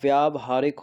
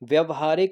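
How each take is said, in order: First: The first syllable has a long vowel. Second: The first syllable has a short vowel. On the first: The speaker calls it right. "व्यावहारिक होता है" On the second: The speaker calls it wrong. "व्यवहारिक नहीं होता"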